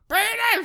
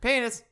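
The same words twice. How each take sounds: First: The word is said loudest. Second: The word is said quietly. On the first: "you gradually get louder" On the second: "you start like"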